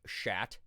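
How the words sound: It is said with a strong American accent.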